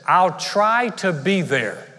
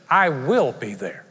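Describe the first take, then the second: First: "I'll try to be there" drawn out slowly, vague; noncommittal. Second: "I will be there" slow and firm, weight on "will"; mean every word; firm promise. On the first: Pastor mimicking a friend dodging moving day, slow and vague. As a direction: promise nothing. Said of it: "If someone says". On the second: Pastor showing a friend's firm promise to help, slow and weighty. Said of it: "How about when someone says". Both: Shown as a demonstration.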